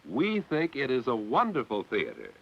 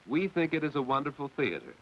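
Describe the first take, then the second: First: It is said with lively, excited energy. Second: It is said flatly, with little energy. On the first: The speaker feels the theater is wonderful. The speaker calls it right. "That exclamation mark tells anyone" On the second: The speaker's feeling does not come across. The speaker calls it wrong. "that certainly sounds flat and uninteresting"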